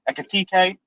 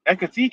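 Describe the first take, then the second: First: The name is said in a Brummy accent. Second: The name is said in a plain accent. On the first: The speaker calls it right. "why have you tried to say that with a Brummy accent?" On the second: The speaker calls it wrong. "No, no, let me say it right"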